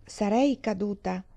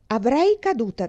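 First: "Sarei caduta" said slowly, with the proper auxiliary sarei; correct auxiliary. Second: "avrei caduta" said as is, with the wrong auxiliary avrei. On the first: Dee corrects Jenny, slowly saying "Sarei caduta". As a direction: set it right: "Sarei caduta", slow and careful. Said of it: "Avresti dovuto dire". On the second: Jenny brags about the hayloft, saying "avrei caduta". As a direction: read out "avrei caduta", the girl's grammar slip. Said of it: "Avresti dovuto dire, "Sarei caduta". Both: A narrator's reading.

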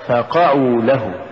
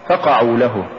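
First: فقعوا with the ف set apart and the ق pushed; push on the qaf. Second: فقعوا run together as one root word, no push on the ق; wrong stress. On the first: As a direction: lean on the ق right after the ف in فقعوا. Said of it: "بدفع القاف". (نطق فقعوا بدفع القاف بعد الفاء) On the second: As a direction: say فقعوا quickly, leaning on the ف. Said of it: "الخطأ". (نطق فقعوا ككلمة واحدة دون دفع القاف) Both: Shown as a demonstration.

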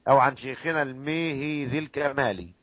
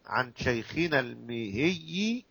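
First: الميهي with the ya doubled; الميهي with a stressed shadda. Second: الميهي said slowly with light ya; الميهي drawn out and softened. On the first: Teacher recites the doubled الميهي to students. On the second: Teacher recites the light الميهي to students, slowly. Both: Shown as a demonstration. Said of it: "تخففها أو تشددها".

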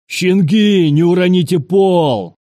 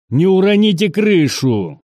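First: High, loud mocking-back shout; yelling back. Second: High-pitched shouted order; sergeant's shout. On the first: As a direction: shout back in the same yelled tone. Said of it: "Таким же тоном ответил". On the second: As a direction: yell it high to the whole squad. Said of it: "Крик старшины". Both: A narrator's reading.

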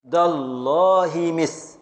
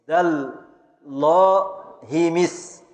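First: Slow scansion. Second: Chanted, each syllable stretched very slowly; drawn-out scansion chant. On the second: Teacher chants the verse to pupils in a slow scansion. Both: Shown as a demonstration. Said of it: "والساء سكون".

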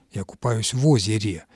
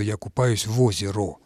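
First: Озере declined, ending in -е; correct declined form. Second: Озеро left undeclined, ending in -о; wrong undeclined form. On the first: Language expert correcting the example, озере ending in -е. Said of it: "существительные среднего рода". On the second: Language expert showing an impossible form, озеро ending in -о. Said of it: "Мы же не, не можем сказать". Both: Shown as a demonstration.

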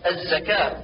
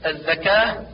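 First: الزكاة with clear buzzing z; true zay. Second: الزكاة with dh for z; zay as dhal. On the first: Teacher corrects, الزكاة as az-zakah. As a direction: keep a clean ز in الزكاة. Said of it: "والصواب". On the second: Teacher shows the error, الزكاة as adh-dhakah. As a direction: lisp the ز of الزكاة into ذ. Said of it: "كالنطق بالزاي ذالا". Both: Shown as a demonstration.

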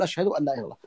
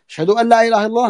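First: Much softer, falling reply; listener's reply. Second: A hint of the muezzin's call, higher and fast with a rising end. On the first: Shown as a demonstration. Teacher showing the listener's quiet reply, soft and falling. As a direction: murmur the answer back quietly. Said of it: "نقول". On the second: Teacher lightly imitating the muezzin's testimony, higher and fast. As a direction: lightly sing it out like the call to prayer. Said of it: "قال".

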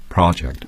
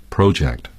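First: "project" with a short open "ah", PRAH-ject; American project. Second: "project" with a long "oh", PROH-ject; British project. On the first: Guest contrasts the American "project", PRAH-ject. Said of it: "but an American says project". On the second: Canadian guest shows the British "project", PROH-ject. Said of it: "like an English person would". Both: Shown as a demonstration.

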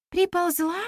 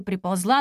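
First: High questioning ПРИПОЛЗЛА, rising at the end; surprised echo. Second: Said in the usual way. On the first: A narrator's reading. Girl questioning the storyteller about the goddess, surprised. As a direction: echo it back as a puzzled question. Listener echoes the word in surprise.

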